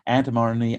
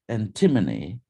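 First: It is said in an American accent. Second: It is said in a British accent.

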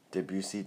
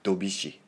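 First: The name is said with French sounds. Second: The name is said with Japanese sounds. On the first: "Is that the right English and French pronunciation?" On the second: "In Japanese, they say Dobishi"

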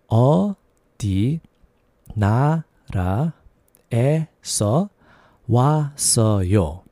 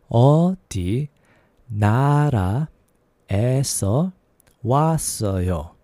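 No difference in how they are said.

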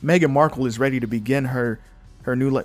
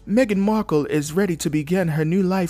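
First: It is read in the speaker's ordinary accent. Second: It is read in an imitated British accent.

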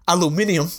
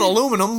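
First: The word is said the British way. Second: The word is said the American way.

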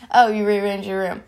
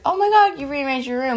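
First: It sounds flat and unimpressed. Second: It sounds excited and surprised.

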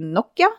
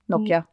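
First: It is said the Finnish way. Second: It is said the English way. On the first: "for det jo finsk, og det heter Nokia" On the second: "på engelsk så sier de Nokia"

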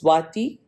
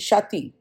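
First: The name begins with an 'sw' sound. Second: The name begins with an 'sh' sound. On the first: The speaker calls it right. "though my name is Swati" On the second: The speaker calls it wrong. "they did not want to say the SW"

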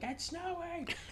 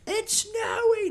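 First: It is said more quietly. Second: It is said more loudly.

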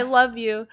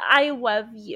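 First: It is said in a plain, normal voice. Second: It is said in a mocking baby-talk voice.

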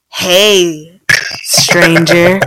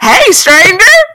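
First: It is said in a flirtatious, suggestive tone. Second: It is said in a casual, friendly tone.

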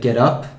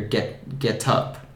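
First: The t is soft and flapped, like a d. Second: The t is a strong, crisp t sound. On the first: "So I would say get up" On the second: "but in the UK you might hear get up"

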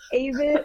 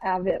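First: The first vowel sounds like in crave. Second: The first vowel sounds like in have. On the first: The speaker calls it right. "it's Avett like crave it" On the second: The speaker calls it wrong. "not Avett like have it"

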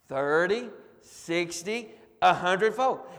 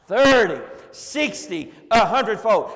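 First: It is said at a normal speaking volume. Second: It is shouted loudly with high energy. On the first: "you guys say it with me" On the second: "Let's shout it to the rooftops"

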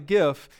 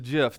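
First: The word begins with a hard G sound. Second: The word begins with a soft J sound. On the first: The speaker calls it wrong. "It's not a GIF" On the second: The speaker calls it right. "This G is really soft like a J"

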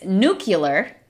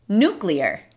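First: The word is said as nu-cu-lar. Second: The word is said as nu-clear. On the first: The speaker calls it wrong. "No es nuclear" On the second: The speaker calls it right. "es nuclear"

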